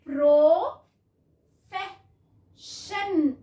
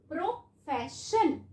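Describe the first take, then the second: First: profession very slow and louder, each sound stretched; slow blended word. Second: Said in the usual way. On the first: Shown as a demonstration. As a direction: blend profession out slowly for the class. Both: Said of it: "उसके बाद".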